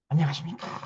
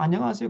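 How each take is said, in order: First: The greeting is said quietly and solemnly. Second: The greeting is said plainly at normal volume.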